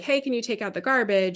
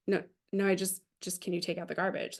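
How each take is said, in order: First: Said in the usual way. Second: Much softer, gently backing off; soft reassurance. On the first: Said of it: "she felt like he was accusing her". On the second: Retold or imitated. Dad reassures grumpy daughter he isn't accusing her, softly. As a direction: take the edge off, nothing accusing. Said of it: "he was really just trying to say".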